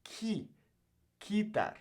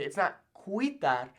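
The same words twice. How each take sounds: First: Quitar said kee-tar, U silent; correct pronunciation. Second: Quitar with the U sounded, slowly; wrong pronunciation. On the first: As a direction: give the right quitar clearly. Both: Shown as a demonstration.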